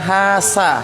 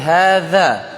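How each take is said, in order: First: The middle consonant is a hissing s sound. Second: The middle consonant has the tongue between teeth. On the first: The speaker calls it wrong. "Yang kita bilang hasa" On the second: The speaker calls it right. "tapi hadza; ujung lidah keluar sedikit"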